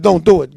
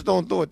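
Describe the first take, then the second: First: Loud stern "Don't do it."; thundering warning; loud prophetic command. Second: Said in the usual way. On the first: Retold or imitated.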